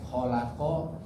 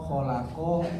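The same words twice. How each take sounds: No difference in how they are said.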